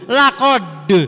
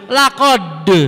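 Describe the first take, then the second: First: The final d is released with a bounce. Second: The final d is released with a bounce.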